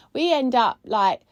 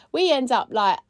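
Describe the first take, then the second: No difference in how they are said.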